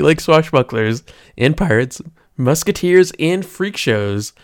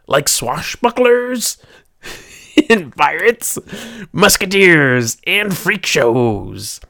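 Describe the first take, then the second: First: It is said in the speaker's ordinary natural voice. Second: It is said in a throaty put-on pirate voice.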